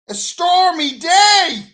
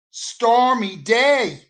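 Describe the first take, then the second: First: Much higher, louder, slow yell of stormy day; comic shout of a stormy day; shouted repeat. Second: Slow, weighty stormy day; stormy day stretched out for effect; drawn-out emphasis. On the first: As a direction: bellow it out in mock outrage. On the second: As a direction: lean on stormy day slowly. Building his near-death story. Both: Acted.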